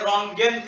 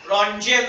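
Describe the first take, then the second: First: The middle consonant is a hard g sound. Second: The middle consonant is a soft j sound. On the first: This is how German speakers say it. "ते रॉन्गेन करतात" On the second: This is how it is commonly said here. "रॉन्जेन असं आपण प्रोनाउन्स करतो"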